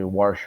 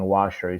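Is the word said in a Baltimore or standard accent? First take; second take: Baltimore; standard. First: The word is said in a Baltimore accent. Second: The word is said in a standard accent. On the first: "they say washer" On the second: "instead of saying washer"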